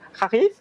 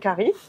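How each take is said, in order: First: The word is said with Arabic sounds. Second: The word is said with plain English sounds.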